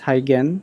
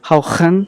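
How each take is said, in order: First: The name is said with an English pronunciation. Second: The name is said with a Dutch pronunciation. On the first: "I'll just pronounce this as Huygen" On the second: "the Dutch pronunciation of this is difficult"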